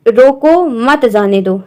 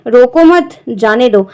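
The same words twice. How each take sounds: First: रोको, a clear comma pause, then मत जाने दो; pause after रोको. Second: रोको मत together, comma pause, then जाने दो; pause after मत. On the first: Teacher reading a comma example to students, pause after रोको. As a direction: read रोको slowly, break, then मत जाने दो together. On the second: Teacher reading the second comma example, pause after मत. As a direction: slowly join रोको to मत, break before जाने दो. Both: Shown as a demonstration. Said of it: "विराम चिन्ह का प्रयोग उसके हिसाब से पढ़ना".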